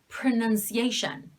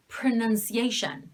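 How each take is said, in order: First: The o is reduced to a schwa. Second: The same.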